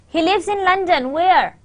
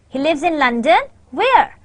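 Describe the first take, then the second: First: The pitch stays flat and unexpressive throughout. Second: The pitch moves expressively, sounding questioning and suspenseful. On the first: "did you get anything out of it? No" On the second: "let's change the stress pattern and let's uh, insert the intonation"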